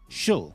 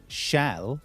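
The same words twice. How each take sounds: First: The vowel is reduced to a neutral uh. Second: The vowel is said as a full vowel. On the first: "shall has become shall" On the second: "shall has become shall"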